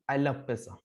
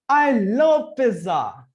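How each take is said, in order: First: It is said flatly, without expression. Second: It is said expressively, with lively tone. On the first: The speaker calls it wrong. "no expression, no the tone goes up" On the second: The speaker calls it right. "looks like more natural"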